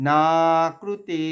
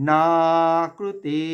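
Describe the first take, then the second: Both takes have the same delivery.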